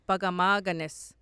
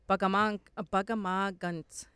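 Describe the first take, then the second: First: A vowel is heard between the final n and s. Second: No vowel is heard between the final n and s. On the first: "It's like spelled P-A-K-A-M-A-H long A gunis" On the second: "Like that. ... We would say guns"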